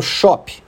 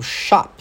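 First: "shop" as SHAW-pee; "shop" with aw and an extra vowel after p. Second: "shop" as SHAHP; American "shop", open ah, final p closed; shop with A vowel. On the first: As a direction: say "shop" Brazilian-style, open O and added final ee. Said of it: "não falo shop". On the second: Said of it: "apesar de escrever com O". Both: Shown as a demonstration.

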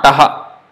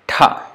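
First: Taha as ta then ha; separated ta-ha; wrong split taha. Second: Tha with a breath puff after the t; one aspirated syllable tha. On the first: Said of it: "Not taha". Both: Shown as a demonstration.

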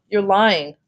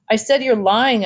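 First: Said in the usual way. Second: Higher, insistent accusation, only slightly louder; mild shout. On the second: A narrator's reading. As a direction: read a child's shout with restraint. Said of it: "I shouted".

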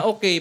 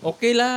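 First: Short, higher "Okay" that falls, without la; a curt "Okay" as if not fully agreeing; not quite okay. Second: Higher, friendly "Okay la" with a lilting la; softened Singlish la. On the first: Showing friends the answer without la, not quite okay. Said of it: "parang hindi masyadong okay yun". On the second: Showing friends how Singaporeans soften a request's answer, softened Singlish la. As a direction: sweeten the "la" at the end of "Okay la". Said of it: "ang lambing dun sa dulo". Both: Shown as a demonstration.

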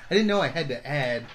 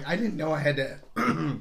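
First: Said in the usual way. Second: Slow line cut short by a failing voice; need to clear the throat mid-sentence; losing voice. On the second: Real, not acted. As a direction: voice starting to give out. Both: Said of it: "sorry, losing my voice here".

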